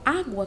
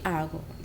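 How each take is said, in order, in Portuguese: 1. A palavra é pronunciada com clareza e precisão. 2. A palavra é pronunciada de forma imprecisa, alguns sons não são bem atingidos. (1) "eu falo água com ele" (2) "não consegue chegar ali certinho para poder falar"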